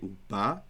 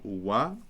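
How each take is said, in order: First: The middle consonant is a b sound. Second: The middle consonant is a w sound. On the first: "I don't say uba" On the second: "notice how I pronounce it"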